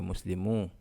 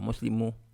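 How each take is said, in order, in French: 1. La voyelle finale est longue. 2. La voyelle finale est courte. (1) "mais Muslimu. Il y a la voix longue ici" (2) "Pas Muslimu"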